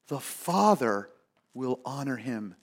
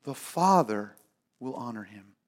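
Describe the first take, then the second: First: The Father, will honor him read slowly with a pause after Father; slow scripture reading. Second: Father punched, then will honor him falling soft; stress on Father. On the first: Preacher reading the verse aloud to the congregation, slow and measured. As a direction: let Father hang, then drop soft on will honor him. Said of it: "Not some low-level dignitary". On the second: Preacher contrasting officials with God, hitting Father. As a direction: land on Father and let the rest sink. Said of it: "not some mid-level official". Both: Shown as a demonstration.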